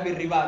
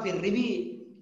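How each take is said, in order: First: The last word ends with an 'a' vowel. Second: The last word ends with an 'i' vowel. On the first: The speaker calls it right. "akan tapi fir riba" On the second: The speaker calls it wrong. "tidak bukan fir ribi"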